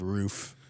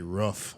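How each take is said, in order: First: It is said with the standard pronunciation. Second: It is said with the Wisconsin pronunciation. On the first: It is the usual way others say it. "instead of roof" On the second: It is how the speaker used to say it. "I used to say roof instead"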